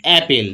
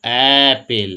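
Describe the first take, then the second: First: Said in the usual way. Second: অ্যাপেল with a long, lower-pitched opening "aa"; drawn-out first vowel. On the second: Shown as a demonstration. Teacher showing students the first sound, অ্যাপেল with "aa" held long. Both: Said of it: "কি উচ্চারণ হচ্ছে?".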